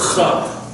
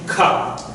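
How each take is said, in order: First: It starts with a breathy ch sound. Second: It starts with a hard k sound. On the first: The letter has no dagesh. "K H" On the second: The letter has the dagesh. "K sound"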